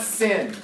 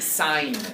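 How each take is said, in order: First: It rhymes with 'win', a short vowel. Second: It rhymes with 'line', a long vowel. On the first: The speaker calls it wrong. "It's not sin. The angle did not sin against the world" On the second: The speaker calls it right. "It's sine. Please read it as sine"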